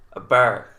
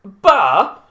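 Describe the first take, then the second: First: Said in the usual way. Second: Loud, high, baffled Bristol "Bar?"; exaggerated Bristol accent, puzzled and loud; mock Bristol accent. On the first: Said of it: "I was like". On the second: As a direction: echo "Bar" in disbelief, Bristol-style. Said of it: "And they were like".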